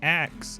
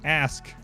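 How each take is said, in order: First: The final sounds are swapped, ending in 'ks'. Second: The final sounds are in order, ending in 'sk'. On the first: "pronounces ask as axe" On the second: "it's ask"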